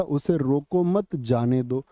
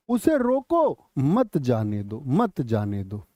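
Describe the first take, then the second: First: रोको मत joined, then जाने दो; pause after मत. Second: Slow रोको held, then मत जाने दो; pause after रोको. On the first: Teacher illustrating a shifted pause for students, pause after मत. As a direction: break after मत, keeping it with रोको. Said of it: "जैसे यहाँ पर यति यहाँ थी". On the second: Teacher illustrating the moved yati, pause after रोको. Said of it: "यहाँ यति आ गई". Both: Shown as a demonstration.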